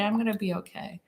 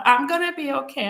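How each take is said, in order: First: Said in the usual way. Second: Higher-pitched, mildly emotional retold reassurance; retold anxious self-reassurance; upset insistence. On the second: Upset, insisting she is okay.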